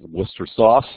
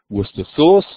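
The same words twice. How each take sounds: First: It is said with an American accent. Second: It is said with a British accent. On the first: "something like Worcester sauce, if you're in the American edition" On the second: "if you're in the British edition"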